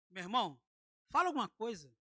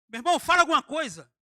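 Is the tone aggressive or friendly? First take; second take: friendly; aggressive. First: It is said in a kind, friendly tone. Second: It is said in an aggressive, commanding tone.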